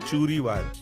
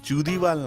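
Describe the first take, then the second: First: The middle consonant is an r-like sound. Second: The middle consonant is a d sound. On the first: The speaker calls it right. "এটা উচ্চারণ হচ্ছে চুরিওয়াল" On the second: The speaker calls it wrong. "চুদিওয়াল না"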